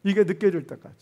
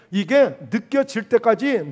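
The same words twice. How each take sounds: First: Said in the usual way. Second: 이게 느껴질 때까지 drawn out slowly, 이게 leaned on; slow, weighted repeat. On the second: Shown as a demonstration. Preacher to congregation, repeating the key phrase slowly. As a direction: stretch 이게 느껴질 때까지 out word by word. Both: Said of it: "이게 느껴질 때까지 기도해야 되는 거예요".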